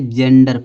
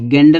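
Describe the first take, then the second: First: The word starts with a j sound. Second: The word starts with a hard g sound. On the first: The speaker calls it right. "जेंडर पढ़ेंगे" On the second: The speaker calls it wrong. "गेंडर नहीं पढ़ेंगे"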